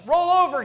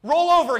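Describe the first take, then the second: First: Even higher, louder dog command; louder mock dog command. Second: High, loud command to a dog; mock dog command. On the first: Preacher pushing the mock command to God higher still, loud. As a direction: bark it at God like a trick dog. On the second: Preacher mocking believers commanding God like a dog, loud and high. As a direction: order God to roll over like a pet. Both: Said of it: "as if he is Rover".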